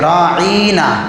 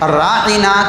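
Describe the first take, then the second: First: The word is said with the tongue pressed down. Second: The word is said plainly, tongue relaxed. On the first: You are our shepherd. "ज़रा ज़बान को दबा कर बोलते थे। ... ये बोलने का अंदाज़।" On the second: Please pay attention to us. "अगर अरबी में देखेंगे"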